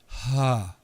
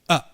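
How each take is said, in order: First: The vowel starts softly with a breathy h. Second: The vowel starts with a sharp glottal catch. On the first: "rather than slide" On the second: "in a glottal attack, they kind of snap together"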